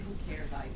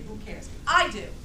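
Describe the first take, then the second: First: It is said flatly, without energy. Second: It is said loudly, with lots of energy.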